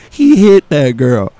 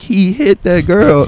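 First: Exhausted mumble. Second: Exhausted repeat. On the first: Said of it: "all I could muster was". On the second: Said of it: "And I'm like". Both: Retold or imitated.

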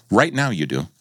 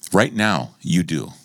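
First: Said in the usual way. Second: Right now you do, slowed and weighted; slow emphatic repeat. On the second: Shown as a demonstration. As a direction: lean on every word of Right now you do. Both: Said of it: "repeated for emphasis".

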